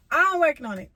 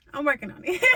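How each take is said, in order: First: Louder, through a laugh. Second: Weary, self-mocking sigh. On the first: Joking to viewers about her money, laughing louder. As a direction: laugh it off, bright and loud. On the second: Admitting to viewers she isn't rich, sighing. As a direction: sigh it out, a bit rushed. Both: Real, not acted. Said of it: "y'all might think I got money".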